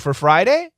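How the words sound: It is said as a question. The listener checks what was said. "You can make it a question"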